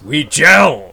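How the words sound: It is said with strong feeling and emphasis.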